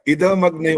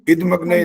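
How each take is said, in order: First: The d sound is followed by a full vowel. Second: The d sound is cut short without a vowel. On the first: The speaker calls it right. "इदमग्न होता है। ... ये इद द पूरा बोलना होता है" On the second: The speaker calls it wrong. "इदमग्न नहीं होता है, ... द का हलंत हर बार आ रहा है"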